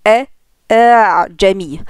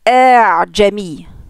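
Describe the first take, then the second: First: The opening vowel is split by a soft catch. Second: The opening vowel is held long without a break. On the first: The speaker calls it right. "On va dire e, e, Jamie" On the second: The speaker calls it wrong. "on ne dit pas e, Jamie. Parce que là, en fait, on fait une prolongation de deux temps"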